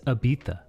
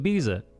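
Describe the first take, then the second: First: The z is said like a th. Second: The z is said like an s. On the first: The speaker calls it wrong. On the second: The speaker calls it right.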